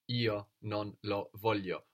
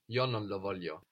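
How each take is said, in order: First: It is said slowly, with breaks between words. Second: It is said smoothly, with words running together. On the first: "if you say it slowly and broken like this, you would pronounce more io" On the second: "Or more fluently"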